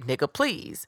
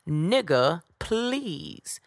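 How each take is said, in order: First: It is said in her own normal voice. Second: It is said in a Miss Sophia impression.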